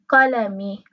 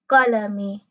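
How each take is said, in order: No difference in how they are said.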